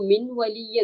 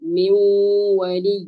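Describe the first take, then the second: First: The n sound is pronounced clearly before the w. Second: The n sound merges into a nasalized w. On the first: The speaker calls it wrong. "എന്നല്ല" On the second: The speaker calls it right. "ആ നൂനിനെ നമ്മൾ അവ്യക്തമാക്കുകയും ആ വാവിന് ശബ്ദ് കൊടുത്ത് മണിക്കുകയും"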